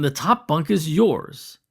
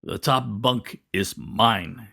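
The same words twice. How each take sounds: First: Said in the usual way. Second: Slow, rumbling grunt of a voice, lightly done; a big man grumbling the claim, slowly; half grunt, half earthquake. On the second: A narrator's reading. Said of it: "he said in a voice that is half grunt, half earthquake".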